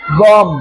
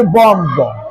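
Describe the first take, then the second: First: "बॉम" ending on m; silent b. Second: Drawn-out "बॉम्ब" with a sounded final b; "बॉम्ब" said as "bom-bo"; mistaken pronunciation. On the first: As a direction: close "बॉम" on m, no b. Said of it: "बी silent रहेगा". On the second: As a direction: slowly release the b ending "बॉम्ब". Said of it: "लेकिन ऐसा होता नहीं है". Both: Shown as a demonstration.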